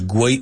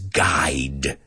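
First: A w sound follows the g. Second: No w sound follows the g. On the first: The speaker calls it wrong. "no es guay" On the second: The speaker calls it right. "it's guide, right? Esa U-I es I"

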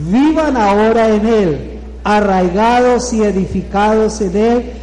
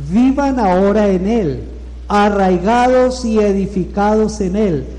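Both takes have the same delivery.

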